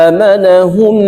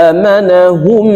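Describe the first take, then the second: Both takes have the same delivery.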